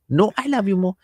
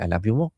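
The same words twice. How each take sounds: First: Put-on high-pitched child's playful insistence; innocent child insisting. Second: Said in the usual way. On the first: Child outdoing parent's love, high playful insistence. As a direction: pitch it up like an adoring little kid. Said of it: "those masoom". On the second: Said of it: "Then I say".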